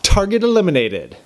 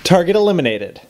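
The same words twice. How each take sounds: First: The line is delivered in an overdone, cheesy way. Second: The line is delivered in a restrained, less cheesy way. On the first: The speaker calls it wrong. "Ugh, that was cheesy" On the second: The speaker calls it right. "That was way better"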